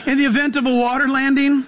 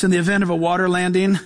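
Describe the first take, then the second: First: Flight attendant voice. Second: Said in the usual way. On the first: Retold or imitated. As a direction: announce it like crew over the intercom. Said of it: "they'll tell you". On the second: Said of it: "they'll say stuff like this".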